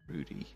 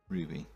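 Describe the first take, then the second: First: The middle consonant is a d sound. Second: The middle consonant is a b sound. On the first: The speaker calls it wrong. "I've heard some people pronounce this as Rudy" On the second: The speaker calls it right. "it's definitely a B"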